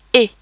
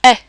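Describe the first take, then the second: First: E as a flat, closed French é. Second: Eh as an open French è. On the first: Teacher contrasting accents, E as flat é. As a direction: say E as French é, like a short "ay". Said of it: "it's kind of a flat sound, flat E". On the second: Teacher contrasting accents, eh as open è. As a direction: say eh openly, as in "bet". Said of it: "are more like". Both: Shown as a demonstration.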